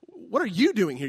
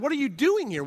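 First: The stress is on you. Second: The stress is on doing.

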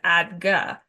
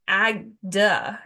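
First: The second syllable starts with a G sound. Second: The second syllable starts with a D sound. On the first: The speaker calls it right. "instead of ag-gah" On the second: The speaker calls it wrong. "I was saying it was ag-duh instead of ag-gah"

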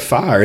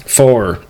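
First: The word is carefully enunciated as 'fire'. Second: The word is drawled like 'far', one syllable. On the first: "I will make sure I enunciate for you" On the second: "I said a far"

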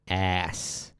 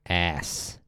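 First: It is said the American way, like ass. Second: The same.

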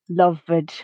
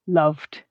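First: The word has two syllables, with an added ed syllable. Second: The word has one syllable, ending in a d sound. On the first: The speaker calls it wrong. "pronounce that letter E and create an additional syllable" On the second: The speaker calls it right. "the base form has the same number of syllables as the past tense ed form"

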